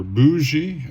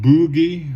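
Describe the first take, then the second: First: "Bougie" said as BOO-zhee; "Bougie" the French way, BOO-zhee; soft-G pronunciation. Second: "Bougie" said as BOO-ghee; "Bougie" rhyming with boogie, hard G in the middle; hard-G pronunciation. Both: Shown as a demonstration. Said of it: "depending upon how you wanna say it".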